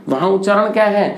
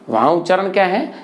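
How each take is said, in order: Both takes have the same delivery.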